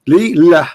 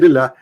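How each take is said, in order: First: The two parts are said slowly and separately. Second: The two parts are run together quickly.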